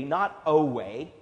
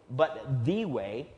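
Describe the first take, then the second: First: Slow, weighted "not a way"; stressed contrast. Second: "the" stressed and stretched slowly, rising. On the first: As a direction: lean on "a way" as the wrong answer. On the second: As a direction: land hard on "the" in "the way". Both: Shown as a demonstration.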